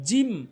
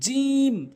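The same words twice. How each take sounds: First: The letter name is said with Bengali-style sounds. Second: The letter name is said with Arabic-style sounds. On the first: The speaker calls it wrong. "ভুল উচ্চারণ" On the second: The speaker calls it right. "সঠিক উচ্চারণ"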